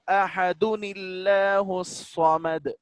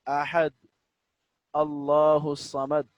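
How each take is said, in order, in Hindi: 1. शब्दों को एक अतिरिक्त 'nil' आवाज़ के साथ जोड़ा जाता है। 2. शब्द अलग-अलग बोले जाते हैं, 'ahad' पर खत्म होता है।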